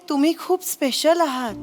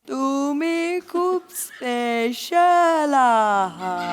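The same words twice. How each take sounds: First: It is said at normal speed. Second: It is said very slowly.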